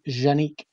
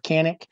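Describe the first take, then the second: First: The name is said the original Turkish way. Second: The name is said the common American way. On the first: The speaker calls it right. "the proper way to pronounce it is actually Janique" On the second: The speaker calls it wrong. "a lot of people pro- pronounce it Kanik"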